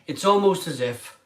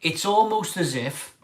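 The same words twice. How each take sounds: The two takes are said the same way.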